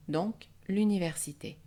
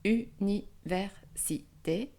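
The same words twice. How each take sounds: First: Said in the usual way. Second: Université cut into separate syllables; u-ni-ver-si-té, spaced out. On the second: Shown as a demonstration. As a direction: break université apart for the class. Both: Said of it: "Si nous découpons en syllabes".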